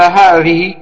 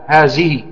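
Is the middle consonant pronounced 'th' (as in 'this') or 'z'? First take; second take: th; z. First: The middle consonant is pronounced as 'th' in 'this'. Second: The middle consonant is pronounced as a z. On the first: It follows the standard language. The speaker calls it right. "إذا قرأ القرآن قال هذه" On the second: It reflects a local dialect. The speaker calls it wrong. "يقول في الذال ينطقها زاي"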